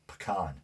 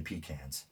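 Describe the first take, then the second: First: "pecan" as puh-KAHN; alternate pronunciation. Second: "pecans" as PEE-cans; own regional pronunciation. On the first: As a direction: stress the second syllable of "pecan", puh-KAHN. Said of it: "Or is it, uh, pecan?". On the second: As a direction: stress the first syllable of "pecans", PEE-cans. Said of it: "I say pecans". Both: Shown as a demonstration.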